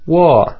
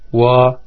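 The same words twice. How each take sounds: First: The pitch starts high and falls low. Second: The pitch stays high and level. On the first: "o quarto tom é descendente. Começa agudo e fica grave" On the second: "O primeiro tom é mais agudo e estável"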